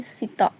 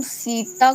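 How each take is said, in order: First: सीता said as "sita" with a short first "i"; unstressed, short vowel. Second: सीता with the first vowel held long and stressed; stressed first syllable. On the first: Teacher showing the wrong way, first vowel short and unstressed. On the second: Teacher contrasting two ways of saying a word, stressed long vowel. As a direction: lean slowly on the "ee" of सीता. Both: Shown as a demonstration. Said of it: "सीता में बल ना दें".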